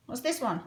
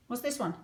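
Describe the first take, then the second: No difference in how they are said.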